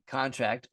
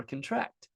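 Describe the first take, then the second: First: "contract" as CON-tract, the noun; stress on first syllable. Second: "contract" as cun-TRACT, the verb; stress on last syllable. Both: Shown as a demonstration. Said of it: "you can't say contract or contract".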